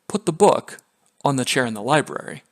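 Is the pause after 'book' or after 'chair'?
after book. There is a pause after 'book'.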